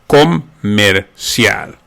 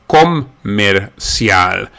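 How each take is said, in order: The two takes are said the same way.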